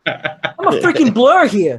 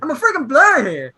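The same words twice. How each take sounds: First: Said through a laugh, slowed down. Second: Higher pitched teasing echo of a friend's line; mimicking his friend. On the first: Real, not acted. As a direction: laugh your way through the line. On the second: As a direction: parrot your buddy back at him, higher.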